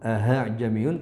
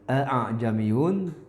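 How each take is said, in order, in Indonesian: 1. Hamzah kedua terdengar seperti h. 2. Hamzah kedua diucapkan penuh dan jelas. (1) "tidak boleh juga dibaca dengan ha'jamiyun" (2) "tidak boleh ya dibaca dengan a'jamiyun"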